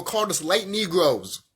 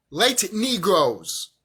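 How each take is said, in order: First: Said in the usual way. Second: "Light Negroes" drawn out slowly, word by word; slow emphatic repeat. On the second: Real, not acted.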